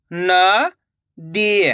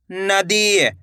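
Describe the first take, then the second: First: "नदी" split with a pause; rising न, pause, then दी in "नदी"; syllable by syllable. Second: Said in the usual way. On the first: Shown as a demonstration. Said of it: "एक एक अक्षर का उच्चारण". ("नदी" को तोड़कर, न... दी) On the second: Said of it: "तो मिलके बन जाएगा".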